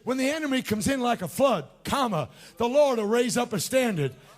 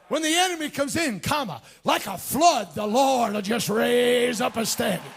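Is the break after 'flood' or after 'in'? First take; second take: flood; in. First: The break comes after 'like a flood'. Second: The break comes right after 'comes in'.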